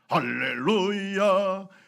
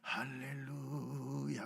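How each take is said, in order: First: It is said loudly. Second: It is said very quietly.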